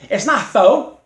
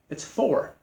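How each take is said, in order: First: For said as "foe", loud and high; mocking mispronunciation. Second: For said with its r sounded; softer, matter-of-fact for with a clear final r; corrected pronunciation. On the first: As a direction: punch out foe with the r dropped. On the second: Shown as a demonstration. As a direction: correct it to "for", r pronounced.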